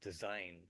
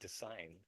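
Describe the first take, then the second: First: The middle consonant is a buzzing Z sound. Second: The middle consonant is a hissing S sound. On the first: "pronounce the word with a Z, uh, Z sound" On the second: "its meaning is a bit more powerful"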